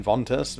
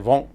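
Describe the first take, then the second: First: "ventus" said fully as VON-tus; Spanish pronunciation. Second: "vent" cut to a nasal "von"; French pronunciation. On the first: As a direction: pronounce both the t and s in "ventus". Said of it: "you pronounce everything". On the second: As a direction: leave the t of "vent" silent. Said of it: "you don't even hear, like, half the letters". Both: Shown as a demonstration.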